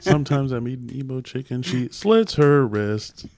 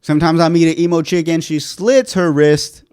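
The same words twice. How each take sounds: First: Mock beat poet reading through laughter; laughing imitation of a beat poet. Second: Beat poet. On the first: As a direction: parrot the poem while laughing. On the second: Acted. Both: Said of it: "now you sound like a beat poet".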